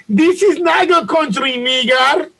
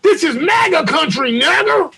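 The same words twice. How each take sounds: First: High-pitched Nigerian accent impression; exaggerated Nigerian-accented shout; mock Nigerian accent. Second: High-pitched mock threat; high put-on attacker voice; mimicked attacker. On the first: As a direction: imitate a Nigerian attacker's accent. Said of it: "if there was audio in the video". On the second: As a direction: call it out high as the staged attacker. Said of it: "put a string around his throat and say".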